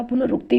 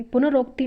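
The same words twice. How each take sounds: First: पुनरुक्ति with a short "u" after r; short "ruk" in पुनरुक्ति; correct form. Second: पुनरोक्ति with an "o" after r; wrong form. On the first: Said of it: "होता है". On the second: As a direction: say पुनरोक्ति as pu-na-ROK-ti. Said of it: "नहीं होता". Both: Shown as a demonstration.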